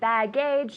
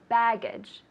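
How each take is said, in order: First: The stress is on the second syllable. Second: The stress is on the first syllable. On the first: The speaker calls it wrong. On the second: The speaker calls it right. "Baggage with the emphasis on the first syllable"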